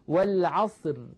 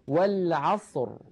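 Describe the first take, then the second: First: The final r is light and thin. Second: The final r is heavy and full. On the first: The speaker calls it wrong. "لا نقول والعصر، لا نقول ذلك أبدا" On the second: The speaker calls it right. "بل نقول والعصر، إذا نفخمها"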